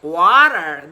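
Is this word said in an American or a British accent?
American. It is said in an American accent, R sounded. "they roll their R's a lot. So that's like water. That's what an American would say"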